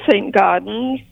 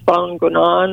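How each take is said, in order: First: The name is said with an English pronunciation. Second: The name is said with a French pronunciation. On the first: "I pronounce it St. Gaudens" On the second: "My husband has a better handle on French, so he says"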